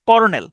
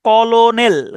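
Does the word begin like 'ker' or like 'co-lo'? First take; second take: ker; co-lo. First: The word begins with a 'ker' sound. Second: The word begins with 'co-lo' syllables. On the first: This is how the word is actually pronounced. "উচ্চারণটা হচ্ছে কর্নেল" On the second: This follows the written spelling of the word. "কিন্তু বানানটা হচ্ছে কলোনেল"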